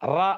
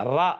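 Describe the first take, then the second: The two takes are said the same way.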